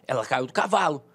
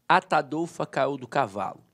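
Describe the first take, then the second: First: It is said with more force and energy. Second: It is said plainly, without extra force.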